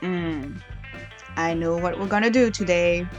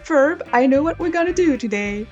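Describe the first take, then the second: First: It is said in her normal voice. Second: It is said imitating Phineas's voice.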